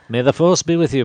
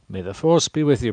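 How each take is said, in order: First: A calm, measured impression of an older mentor. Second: It sounds nasal, like a clogged nose. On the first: The speaker calls it right. "That's kind of like an Obi-Wan" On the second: The speaker calls it wrong. "You almost said that as if your nose was clogged up"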